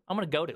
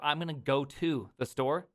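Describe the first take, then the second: First: I'm gonna go to with the store left off; dropped object. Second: Said in the usual way. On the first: Shown as a demonstration. Host demonstrating the Midwest go to slip. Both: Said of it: "Instead of".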